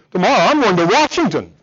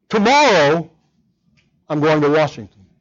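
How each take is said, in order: First: "Tomorrow" runs through quickly, weight lands on "Washington"; stress on Washington. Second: "Tomorrow" lifted and set apart, then "I'm going to Washington" falls away; stress on tomorrow. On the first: Preacher contrasts emphasis, now landing on "Washington". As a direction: push the sentence forward onto "Washington". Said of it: "I change the emphasis with inflection of voice".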